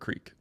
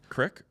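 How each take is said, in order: First: The vowel is long, rhyming with 'seek'. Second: The vowel is short, rhyming with 'stick'. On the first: "Crick or creek?" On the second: "Crick or creek?"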